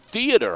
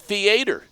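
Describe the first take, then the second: First: It is said in a general, non-Texan way. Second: It is said in a Texan way. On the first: This is not how this person says it. "I don't say theater" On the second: This is how this person says it. "I say theater. It's the way I roll"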